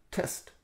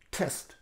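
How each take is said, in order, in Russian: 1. У первого t сильное придыхание. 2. У первого t сильное придыхание.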